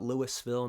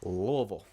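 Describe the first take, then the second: First: The word is clearly articulated, syllable by syllable. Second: The word is mumbled and slurred together. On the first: The speaker calls it wrong. "Not Louisville" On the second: The speaker calls it right. "say it like you got some marbles up in your jaw"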